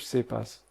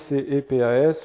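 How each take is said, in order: First: The acronym is pronounced together as one word. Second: Each letter of the acronym is named separately. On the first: The speaker calls it right. "mais qui sont lus" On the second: The speaker calls it wrong. "qui ne sont pas lus de manière éplée"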